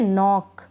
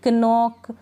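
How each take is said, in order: First: नॉक starting straight on the N; silent K. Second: कनॉक with an audible K before the N; K wrongly sounded. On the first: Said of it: "इसको pronounce नहीं कर रहे". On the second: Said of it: "इस तरह से नहीं". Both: Shown as a demonstration.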